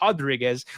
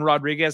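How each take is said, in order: First: The name begins with an H sound. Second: The name begins with a rolled R sound. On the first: It is the Brazilian way of saying it. The speaker calls it right. "which is the Brazilian" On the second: It is the Spanish or Mexican way of saying it. The speaker calls it wrong. "like Spanish Mexican Rodriguez"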